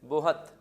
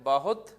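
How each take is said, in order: First: The word is said as bo-hat. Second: The word is said as ba-hut. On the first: "अब ये हो जाएगा बोहत" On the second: "ब बा हो गया ना, हुत"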